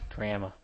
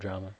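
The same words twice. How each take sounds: First: It is said in a put-on Canadian accent. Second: It is said in the speaker's plain accent.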